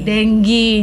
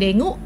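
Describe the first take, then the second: First: The word ends with an 'ee' sound. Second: The word ends with an 'oo' sound. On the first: The speaker calls it right. "yang benar adalah dengue" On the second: The speaker calls it wrong. "Jadi bukan dengu"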